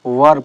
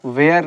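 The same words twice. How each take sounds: First: Were said short as "wur", one flat vowel; correct pronunciation of were. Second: Were drawn out as "weer", two-part vowel rising; wrong way to say were. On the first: Teacher showing students how were is really said. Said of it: "were पढ़ा जाता है इसको". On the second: Teacher showing students the mispronounced were. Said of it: "इसको were नहीं पढ़ेंगे". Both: Shown as a demonstration.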